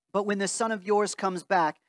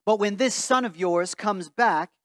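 Both takes have the same delivery.

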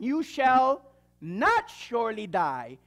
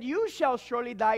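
First: "not" leaned on and drawn out, whole line slow; serpent's denial. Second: Said in the usual way. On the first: Acted. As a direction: stretch "not" in "You shall not surely die" slowly like a sly denial. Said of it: "the serpent said unto the woman". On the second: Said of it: "But God said".

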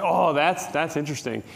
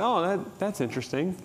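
First: "that's interesting" dropping away at the end; falling inflection. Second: "that's interesting" softly lifting at the end; soft, rising "that's interesting"; upward inflection. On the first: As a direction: fuller "oh", then "interesting" falls. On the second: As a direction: trail up lightly on "interesting". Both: Shown as a demonstration. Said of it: "you gotta watch voice inflection here".

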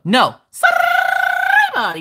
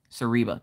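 First: "Sariba." very high, slow, R rolled long; rolled R call. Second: Said in the usual way. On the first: Shown as a demonstration. Showing chat how to summon Sariba, rolled R. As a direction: stretch "Sariba." out, rolling the R. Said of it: "that rolling of that R is what summons her". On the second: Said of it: "You can't just be like".

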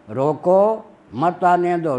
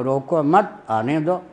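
First: Slow, high रोको set apart, then मत आने दो; रोको alone, then मत joined to आने दो; pause after रोको. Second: Slow, रोको मत joined and rising, then आने दो; "रोको मत" as one phrase, then आने दो; pause after मत. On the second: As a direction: break after मत, not after रोको. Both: Shown as a demonstration. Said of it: "ये बन जाता है".

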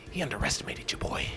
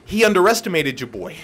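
First: Breathy whispered repeat, much softer. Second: Said in the usual way. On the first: Shown as a demonstration. Gamer whispering a boast about his win. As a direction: whisper it like a secret aside. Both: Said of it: "repeated as whisper".

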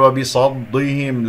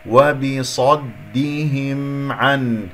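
First: وبصدهم with the د wrongly thickened; heavy dal. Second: وبصدهم slow, with heavy ص and thin د; only sad heavy. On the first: Teacher showing what to avoid, heavy dal. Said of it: "لا تفخم الدال". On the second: Teacher modelling the correct reading, only sad heavy. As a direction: recite وبصدهم slowly, keeping the د light. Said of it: "الصاد فقط هي المفخمة". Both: Shown as a demonstration.

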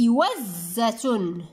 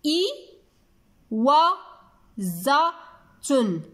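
First: إوزة slowly as one joined word, doubled z held, ending -tun; slow, careful إوزة with no breaks; whole word, drawn out. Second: إي و ز تن in separate syllables, clear pauses between. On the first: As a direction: join إوزة up, stretching it slowly to a final -tun. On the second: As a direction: sound out إي و ز تن one syllable at a time. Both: Shown as a demonstration. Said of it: "لاحظوا معي واسمعوا جيدا".

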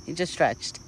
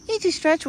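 First: Said in the usual way. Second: Much higher and louder delight; excited pet talk. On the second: Real, not acted. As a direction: squeal it to him happily. Repeated high to the deer.

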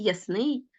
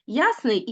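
First: Ясний said as yas-NYI; ясний with the ending strong; stress on last syllable. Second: Ясний said as YAS-nyi; ясний with the opening syllable strong; stress on first syllable. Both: Shown as a demonstration. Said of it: "слова з подвійним наголошенням".

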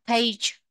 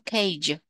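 First: "Page" ending in a j sound; "Page" đọc g thành âm j; soft g in page. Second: "Cage" ending in a j sound; "Cage" đọc g thành âm j; soft g in cage. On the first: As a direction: end "Page" on a soft j, not a hard g. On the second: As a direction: close "Cage" on a soft j, not a hard g. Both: Shown as a demonstration. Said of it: "âm G đọc thành âm G đúng không".

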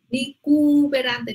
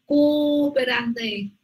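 First: "cooperante" with the o's run together as cu-pe-ran-te; wrong pronunciation. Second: "cooperante" with both o's said separately; correct pronunciation. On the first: Teacher imitates the student's mistake. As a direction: squash the vowels in "cooperante" into one syllable. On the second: Teacher gives the right form to a student. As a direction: say "cooperante" as co-o-pe-ran-te. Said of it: "No, decimos cooperante". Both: Shown as a demonstration.

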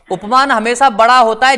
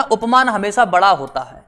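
First: "उपमान हमेशा बड़ा होता है" repeated louder, rising on है; emphatic repeat. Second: Said in the usual way. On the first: Shown as a demonstration. Teacher to students, stressing the rule to remember, louder repeat. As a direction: drill the rule home by saying it louder, है lifted. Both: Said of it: "याद रखना".

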